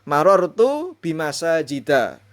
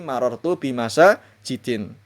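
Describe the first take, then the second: First: The last word ends in a plain a. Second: The last word ends in in. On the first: The speaker calls it right. "ini penting" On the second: The speaker calls it wrong.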